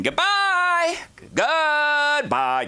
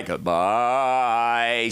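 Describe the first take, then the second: First: Very high, held-out goodbye, imitating mom; mock high-pitched farewell; singsong farewell. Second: Long goodbye sliding down to normal pitch; slow mock farewell in a normal register; drawn-out farewell. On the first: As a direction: trill a drawn-out farewell way up high. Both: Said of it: "She said it every possible way".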